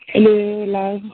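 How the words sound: The greeting sounds forced and unnatural.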